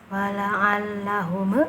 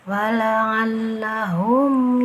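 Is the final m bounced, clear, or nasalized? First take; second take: bounced; clear. First: The final m is released with a bounce. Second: The final m is plain, without nasal hum. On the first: The speaker calls it wrong. "Jangan membacanya" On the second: The speaker calls it right. "Dibacanya harus jelas tanpa ada uh, gunanya"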